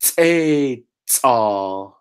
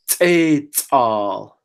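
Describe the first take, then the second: First: Teital said nice and slow. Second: Teital with a glottalized t; Lushootseed word. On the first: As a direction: slowly sound out teital. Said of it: "nice and slow". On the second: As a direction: sound out teital. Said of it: "So let's say this word". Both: Shown as a demonstration.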